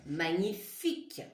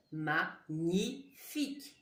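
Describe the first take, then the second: First: Said in the usual way. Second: Magnifique split slowly as ma, gni, fique; slow, separated syllables in "magnifique". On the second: Shown as a demonstration. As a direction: dictate "magnifique" with a gap after each syllable. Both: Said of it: "La syllabe ni, ni".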